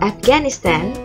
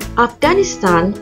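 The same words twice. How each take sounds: First: It is said in an American accent. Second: It is said in a non-American accent.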